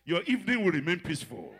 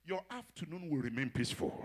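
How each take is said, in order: First: Evening driven out with force; louder blessing. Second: Said in the usual way. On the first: Shown as a demonstration. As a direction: proclaim it, building up. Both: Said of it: "preacher declaring a blessing".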